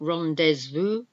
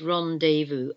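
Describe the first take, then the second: First: The Z sound is pronounced in the middle. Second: The Z sound is silent in the middle. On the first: The speaker calls it wrong. "It's not rendezvous" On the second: The speaker calls it right. "We don't pronounce the Z in it. It's rendezvous"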